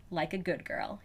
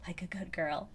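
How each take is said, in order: First: Quiet voiced line; spoken softly. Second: Softer echo of the line; soft whisper. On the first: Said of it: "he says". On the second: Acted. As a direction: breathe it back quietly. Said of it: "I whisper".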